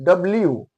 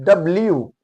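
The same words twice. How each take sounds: The two takes are said the same way.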